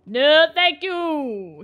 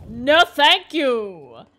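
First: Softer refusal. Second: Firm refusal. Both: Real, not acted.

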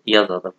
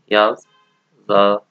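First: Said in the usual way. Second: يظلم drawn long, syllable by syllable; slow modelling. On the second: Shown as a demonstration. Teacher slowing يظلم down so students can copy it. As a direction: stretch يظلم out very slowly and a bit louder.

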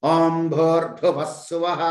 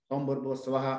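First: Chanted, ఓం భూర్భువః స్వః intoned slowly and louder, each syllable full; chanted, give ఓం భూర్భువః స్వః slow, forceful weight; strong chant. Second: ఓం భూర్భువః స్వః said quick, low and soft; weak recitation. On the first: Teacher showing the mantra chanted with strength. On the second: Teacher contrasting a weak, quiet rendering of the mantra. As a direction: throw away ఓం భూర్భువః స్వః quietly in one breath. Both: Shown as a demonstration. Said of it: "బలం, మంత్రానికి బలం చేకూరుతున్నది".

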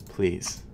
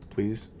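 Both takes have the same delivery.

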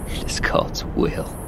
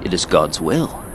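First: Slow whispered echo; bitter whisper. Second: Said in the usual way. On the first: A narrator's reading. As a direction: breathe it to yourself, bitterly. Old narrator whispers to himself.

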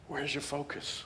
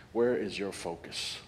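First: Softer, higher, hushed repeat; quiet searching echo. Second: Slow, weighty question; deliberate pastoral question. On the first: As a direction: say it again, almost to yourself. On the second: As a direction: ask it slowly and let it land. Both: Shown as a demonstration.

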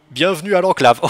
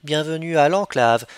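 First: Loud, hammed-up robot greeting; a botched robot announcement, too loud. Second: Steadier, flatter robot greeting; deadpan meme voice. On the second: Pretend. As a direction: deliver it like a cool computer. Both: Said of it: "une meilleure voix de robot que ça".

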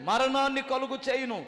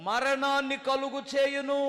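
First: మరణాన్ని punched hard and loud with a falling end; stress on మరణాన్ని. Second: మరణాన్ని కలుగు చేయును drawn out slowly and evenly; first slow reading of మరణాన్ని కలుగు చేయును; slow solemn reading. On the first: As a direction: hammer the word మరణాన్ని home. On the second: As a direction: read the verse slowly and gravely. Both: Shown as a demonstration. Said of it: "ఏనండి జాగ్రత్తగా".

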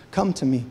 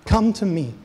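First: Low, gentle come to me. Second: Higher, louder come to me; impassioned call. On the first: Jesus invites harlot bride. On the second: Jesus calling his bride back, an impassioned call. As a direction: cry it out to them. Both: Acted.

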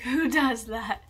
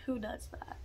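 First: Slow, louder, laughing through it. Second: Said in the usual way. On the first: Real, not acted. Laughing at her own forgetfulness to the camera, slowed. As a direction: laugh at yourself as you ask. Repeats question, laughing at herself.

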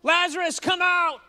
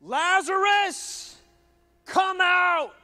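First: High, loud call to the dead man; Jesus shouting into the tomb; shouted command. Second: High, loud, drawn-out call; Jesus calling loudly into the tomb; commanding shout. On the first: A narrator's reading. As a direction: call him out of the tomb with full force. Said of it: "Then Jesus shouted". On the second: Acted. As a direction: summon him with power. Jesus calls Lazarus again.

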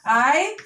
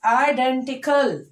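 First: IDENTICAL with long gaps between i, den, ti, cal; split into syllables. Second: Said in the usual way. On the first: Shown as a demonstration. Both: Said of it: "splitting the word like this".

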